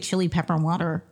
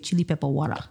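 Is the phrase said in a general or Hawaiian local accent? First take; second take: general; Hawaiian. First: It is said in a general, non-local accent. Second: It is said in a Hawaiian local accent. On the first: This is how outsiders say it. The speaker calls it wrong. "you don't say chili pepper water like how people" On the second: This is how a true local says it. The speaker calls it right. "That's how you know he's like a true Hawaiian guy"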